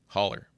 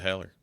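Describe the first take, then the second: First: The first vowel sounds like the one in 'hot'. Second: The first vowel sounds like the one in 'hat'. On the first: Someone else says the name this way. The speaker calls it wrong. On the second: The name's owner says it this way. The speaker calls it right.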